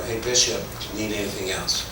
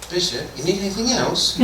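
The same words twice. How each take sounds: First: Said in the usual way. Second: High-pitched, hammed-up English accent; mock English accent, as listeners heard it; exaggerated English accent. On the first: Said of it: "but this is how they heard it". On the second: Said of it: "this is how they heard it".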